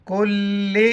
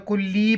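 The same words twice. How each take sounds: First: कुल्ली with held l and short final i; कुल्ली ending on a brief vowel; correct short ending. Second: कुल्ली with a long final ee; कुल्ली finishing on a lengthened ee; mistaken long ending. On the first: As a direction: recite कुल्ली, doubling the ल and keeping the last vowel short. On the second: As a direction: quote the error कुल्ली, stretching the last vowel. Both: Shown as a demonstration. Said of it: "बाज़ पर कुल्ली पढ़ते हैं".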